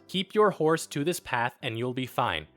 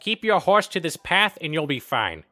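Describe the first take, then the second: First: It is read in the speaker's neutral accent. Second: It is read in a Boston accent. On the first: "I'm going to talk in my normal voice now" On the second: "So with Peter's voice, it would sound something like this"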